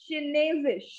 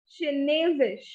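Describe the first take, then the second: No difference in how they are said.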